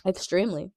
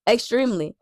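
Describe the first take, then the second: First: Said in the usual way. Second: Extremely said higher with a firm falling stress; emphatic answer. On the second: Shown as a demonstration. Answering the question with firm emphasis on Extremely. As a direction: lean hard into Extremely.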